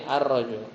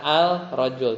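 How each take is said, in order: First: Ar-rajul with the L assimilated, doubled r; ar-rajul, L dropped into a doubled r; right reading. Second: Al-rajul with the L sounded; al-rajul said with a clear L before r; wrong reading. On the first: Teacher showing pupils the correct reading, ar-rajul. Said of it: "tapi ar-rajul". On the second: Teacher showing pupils the wrong reading, al-rajul. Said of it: "Bacanya bukan al-rajul". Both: Shown as a demonstration.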